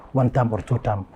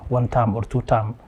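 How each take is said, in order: Both takes have the same delivery.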